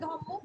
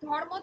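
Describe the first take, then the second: First: A doubled m is heard with no r. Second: An r sound is heard before the m. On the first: The later consonant has changed the earlier one. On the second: This is the original form before assimilation.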